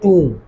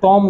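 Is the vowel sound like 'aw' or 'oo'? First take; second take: oo; aw. First: The vowel is a long 'oo' sound. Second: The vowel is an open 'aw' sound. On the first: The speaker calls it right. "इसका तलफ्फुज है टूम" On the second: The speaker calls it wrong. "इसका तलफ्फुज टॉम नहीं है"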